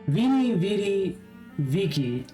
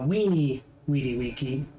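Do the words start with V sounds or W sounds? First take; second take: V sounds; W sounds. First: Each word begins with a V sound. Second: Each word begins with a W sound. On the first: It sounds like common peasant speech. "is the vulgar pronunciation" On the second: It sounds educated and high status. "you would pronounce it as a W"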